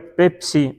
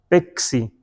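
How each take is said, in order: First: The middle has a clear ps cluster. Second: The middle has an x sound instead. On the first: "diga Pepsi" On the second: "no, Pexi"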